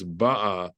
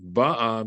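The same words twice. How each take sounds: First: "ba'a" stressed on its final syllable, ba-A; stress on last syllable. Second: "ba'a" stressed on its first syllable, BA-a. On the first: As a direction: save the stress for the end of "ba'a". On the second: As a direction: punch the opening syllable of "ba'a". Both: Shown as a demonstration. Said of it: "if the accent fell on the bottom".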